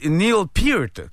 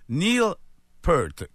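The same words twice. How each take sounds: First: The name has the vowel of ear. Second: The name rhymes with the word pearl. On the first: "comme une oreille, précédé d'un P, suivi d'un T" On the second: "comme une pearl, comme une perle"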